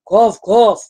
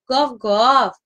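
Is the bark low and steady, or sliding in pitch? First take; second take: low; sliding. First: The bark is low and steady in pitch. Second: The bark slides gently in pitch. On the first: A father dog is barking. "это папа собака" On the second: A caring mother dog is barking. "не прямой звук, а немножко с портамента, со скольжением"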